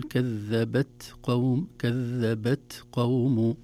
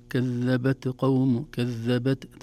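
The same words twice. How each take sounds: First: كذبت with a short puff of breath on the ta, no bounce, then قوم; correct whispered ta. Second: كذبت with the ta bounced, echoing as qalqala; wrong bounced ta. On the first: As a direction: recite كذبت قوم slowly with a light breathy ta. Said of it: "نقول". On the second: Teacher shows the error to avoid, bouncing the ta. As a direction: demo the mistake by bouncing the ta in كذبت. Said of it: "فتصبح قلقلة وليست همس". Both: Shown as a demonstration.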